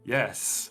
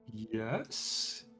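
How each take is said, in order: First: The word is said firmly and with certainty. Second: The word is said uncertainly, like a question. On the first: The speaker is sure of the answer. "much more confidently" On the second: The speaker is unsure of the answer. "it says questioningly"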